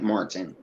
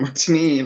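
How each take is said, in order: First: The name is said with an American pronunciation. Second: The name is said with a foreign pronunciation. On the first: This is how Americans would say the name. "for us, it would be like Martin" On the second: This is how the narrator says the name. "The narrator kept calling him Martinine"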